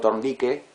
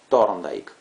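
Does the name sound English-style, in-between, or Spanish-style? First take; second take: Spanish-style; in-between. First: The name is said fully Spanish-style, not English. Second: The name is said halfway between English and Spanish. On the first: It sounds bad. "si digo Thorndike, queda mal también" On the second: It is neither right nor wrong. "que no está ni bien ni mal ... algo intermedio"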